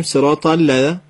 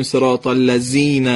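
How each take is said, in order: First: Touch tongue tip to upper teeth for the ذ in الذین; dental dh in الذین. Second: الذین pronounced the Persian way, z for ذ. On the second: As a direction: say الذین with a plain buzzing z, like زنبور. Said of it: "نباید زال رو مثل ز زنبور تو فارسی بگیم". («الذین» با «ز» فارسی) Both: Shown as a demonstration.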